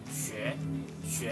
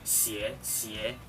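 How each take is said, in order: First: The vowel is a rounded ue sound. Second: The vowel is an unrounded ie sound. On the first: The speaker calls it right. "kita lafalkan yang ini 学学" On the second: The speaker calls it wrong. "lafalnya itu jadi i, jadi 写写"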